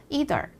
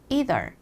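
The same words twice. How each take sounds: First: It is said in an American accent. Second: It is said in an American accent.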